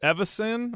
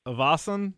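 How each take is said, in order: First: "Evison" with a short unstressed middle, questioning; tentative pronunciation. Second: "Evason" with the middle syllable stressed, questioning; alternative pronunciation. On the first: Unsure of a film character's surname, tentative "Evison". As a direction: try out "Evison", voice lifting in doubt. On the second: Correcting a guess at the character's surname, tentative "Evason". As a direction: offer "Evason" as a second guess. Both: Shown as a demonstration. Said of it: "don't know how to pronounce".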